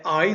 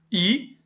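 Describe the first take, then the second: First: I said as English "eye"; name the letter I the English way, "eye"; gliding "ai" sound on I. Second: I said as Portuguese "ee"; name the letter I the Portuguese way, "ee"; a single pure "ee" for I. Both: Shown as a demonstration. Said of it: "pra ele é I".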